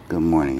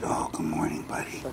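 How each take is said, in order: First: A clear, friendly good morning at full voice. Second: Soft good morning. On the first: Trainer greeting his dog, good morning at normal volume. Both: Shown as a demonstration. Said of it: "this is the way I say good morning".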